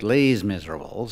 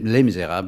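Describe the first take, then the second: First: The first word sounds like English "Lee's". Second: The title is said with French pronunciation. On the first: "but Les Miserables" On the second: "they pronounced it not Les"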